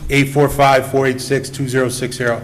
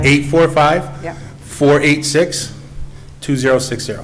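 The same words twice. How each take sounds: First: The number is said at normal speed. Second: The number is said slowly.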